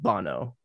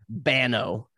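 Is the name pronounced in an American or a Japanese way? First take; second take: Japanese; American. First: The name is said with a Japanese pronunciation. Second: The name is said with an American pronunciation. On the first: "So it would be pronounced Bono. Obviously, in like Japanese, that's how they pronounce it" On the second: "if you were to say it with an American accent, it'd be Bano"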